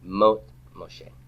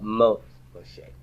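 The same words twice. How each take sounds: First: The first word has one syllable. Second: The first word has one syllable.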